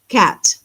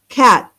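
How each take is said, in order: First: The final T is pushed out audibly. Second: The final T is formed but not released. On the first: "we say the T" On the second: "I'm making the T in my mouth, but I'm not pushing it out"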